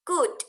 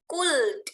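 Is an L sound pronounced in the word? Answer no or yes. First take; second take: no; yes. First: The L is silent, going straight to D. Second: The L sound is pronounced before the D. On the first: The speaker calls it right. "langsung saja ke D" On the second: The speaker calls it wrong. "tidak boleh bilang could, ada L-nya"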